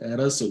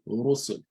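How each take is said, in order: First: The r is light, with a thin mouth. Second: The r is heavy, with a full mouth. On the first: The speaker calls it wrong. "You don't say Rasul" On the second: The speaker calls it right. "you say Rusul"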